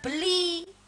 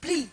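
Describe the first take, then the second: First: It is said as two syllables with a vowel. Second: It is said as one syllable with no vowel. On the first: The speaker calls it wrong. "Mboten beli" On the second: The speaker calls it right. "ngundange karo wong lanang kuwi bli"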